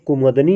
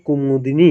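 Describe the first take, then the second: First: The third syllable is da, without an i vowel. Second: The third syllable is di, with an i vowel. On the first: The speaker calls it wrong. "कुमुदनी नहीं" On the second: The speaker calls it right. "दा पर छोटी ई की मात्रा रहेगी"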